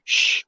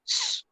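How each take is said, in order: First: Drawn-out unvoiced "sh"; hush-like "sh" held long; sh, the wrong sound. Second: Thin held "s-" hiss; long pure s; s, the right sound. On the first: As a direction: make "sh" a shushing sound. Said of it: "Like, not sh". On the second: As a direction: make "s-" a snake's hiss, not a shush. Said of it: "but like s". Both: Shown as a demonstration.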